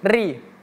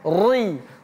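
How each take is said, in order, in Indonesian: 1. Bunyi r itu tipis dan ringan. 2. Bunyi r itu tebal dan berat. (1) "ri itu tipis saja" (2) "bukan ri"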